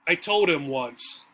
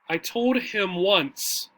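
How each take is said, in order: First: The D links forward and the H drops. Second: Every word and sound is pronounced clearly. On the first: This is heard in casual conversation. "In normal conversation" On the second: This is heard in formal speaking. "Here I enunciated, I spoke very clearly the four words"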